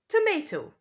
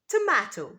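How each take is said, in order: First: It is said in an American accent. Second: It is said in a British accent. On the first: "But some people in America say tomato" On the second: "In British English, it's a tomato"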